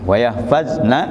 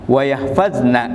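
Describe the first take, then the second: No difference in how they are said.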